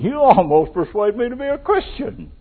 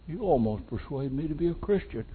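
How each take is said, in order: First: It is said mockingly, with a dismissive edge. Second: It is said earnestly, as if nearly convinced. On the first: The speaker ridicules the attempt to persuade. "What are you trying to do? You think you're going to change me?" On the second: The speaker is genuinely close to being persuaded. "Was he saying"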